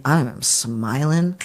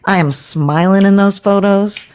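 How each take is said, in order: First: Said in the usual way. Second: "I am smiling in those photos" repeated higher and louder; emphatic repeat. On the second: Shown as a demonstration. Insisting to the interviewer about photos, louder and higher.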